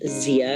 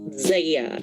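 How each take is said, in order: First: The first vowel sounds like 'ee'. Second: The first vowel sounds like 'ay'. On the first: The speaker calls it wrong. "it is not Zia" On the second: The speaker calls it right. "It is Zaya, I would say"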